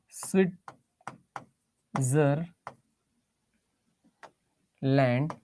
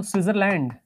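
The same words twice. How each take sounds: First: Very slow, broken into three separate syllables. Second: Said in the usual way. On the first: Real, not acted. Teacher writing the country's name in Hindi, Switzerland drawn out syllable by syllable. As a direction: say Switzerland slowly in pieces, with long gaps between syllables.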